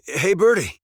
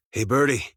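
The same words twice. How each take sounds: First: Higher, louder call to a bird. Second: Said in the usual way. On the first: Acted. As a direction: call out brightly to get the bird's attention. Calls the bird a second time.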